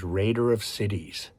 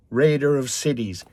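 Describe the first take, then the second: First: Said in the usual way. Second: Angry boast. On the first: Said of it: "sounds like something he's proud of". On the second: Retold or imitated. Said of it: "burst of anger".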